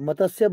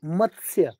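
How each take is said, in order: First: The t is said fully with a vowel after it. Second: The t is half, with no vowel after it. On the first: The speaker calls it wrong. "त पूरा आ जाएगा" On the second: The speaker calls it right. "आधा त"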